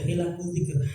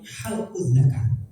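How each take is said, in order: First: The vowels are read as hilaqul dzikr. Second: The vowels are read as halqul dzakar. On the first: Circles of remembrance and learning. The speaker calls it right. "yang benar adalah hilaqul dzikr" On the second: Cutting off the genitals. The speaker calls it wrong. "Karena salah dalam membaca"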